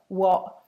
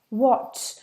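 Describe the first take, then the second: First: The final t is a glottal stop. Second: The final t is clearly released. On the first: "these words are pronounced" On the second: "you haven't got time to say"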